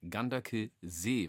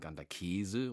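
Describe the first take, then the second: First: The name ends in a long ee sound. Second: The name ends like the word käse. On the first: The speaker calls it right. "Nein, Ganderkesee, weil hinten ist ein S mit einem doppelten E" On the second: The speaker calls it wrong. "wo einige sagen Ganderkäse"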